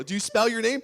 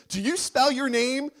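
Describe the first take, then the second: First: Said in the usual way. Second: "spell" pushed higher and louder in a rising question; stress on spell. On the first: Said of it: "repeat with more push". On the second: Shown as a demonstration. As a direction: lean on "spell" and lift the end. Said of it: "repeat louder and higher".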